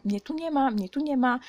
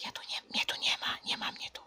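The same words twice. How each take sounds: First: Said in the usual way. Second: Bardzo cichy, bezgłośny szept; szepcz, jakbyś się chowała. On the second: Acted. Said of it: "że nie będzie mnie słychać". (cichutki szept z ukrycia)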